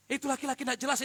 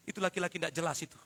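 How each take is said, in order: First: Higher, stressed on jelas; emphatic restatement. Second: Tossed off quickly; fast throwaway aside. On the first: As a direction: lift the voice on jelas. (penekanan pada kata jelas) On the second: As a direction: rattle it off as an aside. (cepat, seperti sambil lalu) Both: Acted.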